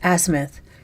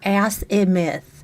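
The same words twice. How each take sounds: First: The middle part of the word is not emphasized. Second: The middle 'ath' part of the word is emphasized. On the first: The speaker calls it right. "It's azimuth" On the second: The speaker calls it wrong. "you really don't need to emphasize the ath. And it's not azimuth"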